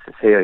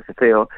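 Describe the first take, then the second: First: "ceseo" said with a plain s sound; seseo with s. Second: "ceceo" said with a lisped th sound. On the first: Linguist naming seseo, voicing its s sound. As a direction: say "ceseo" with a clear hissed s in the first syllable. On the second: Linguist contrasting ceceo, voicing its th sound. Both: Shown as a demonstration. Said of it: "la distinción del ceseo y el ceceo".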